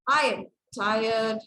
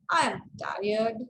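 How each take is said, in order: First: The voice sounds irritated and annoyed. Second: The voice sounds mocking and sarcastic. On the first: Someone is bothering the speaker. "somebody is really annoying you" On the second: The speaker does not mean it literally. "So this is sarcastic way of using intonation"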